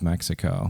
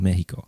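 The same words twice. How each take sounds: First: It is said with an English pronunciation. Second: It is said with a Spanish pronunciation.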